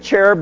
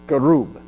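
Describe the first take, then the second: First: The word is said in the usual English way. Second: The word is said in a Hebrew-like way. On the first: The speaker calls it wrong. "You probably hear this as cherub" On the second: The speaker calls it right. "I pronounce it closer to the Hebrew than what you're used to"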